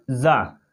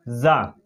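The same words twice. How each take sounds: First: जा with a buzzing z sound; जा said with a vibrating z, not j. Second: जा with a hard j as in jar; जा said wrong with a plain j. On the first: Teacher showing the right sound, जा with a buzzing z. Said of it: "क्या पढ़ेंगे?". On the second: Teacher showing the wrong sound, जा with a hard j. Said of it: "जा नहीं कहेंगे". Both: Shown as a demonstration.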